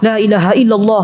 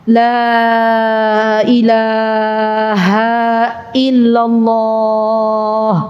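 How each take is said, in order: First: It is said too fast, rushed. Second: It is said at a moderate, unhurried pace.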